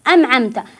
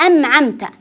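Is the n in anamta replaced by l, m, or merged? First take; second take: m; m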